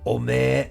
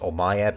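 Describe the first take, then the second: First: The ending is a drawn-out 'ee' sound. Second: The ending is a clear 'ae' sound.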